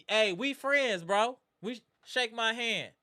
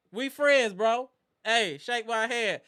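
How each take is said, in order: First: Said in the usual way. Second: Lightly voiced battle rap swagger, slowing on the last line.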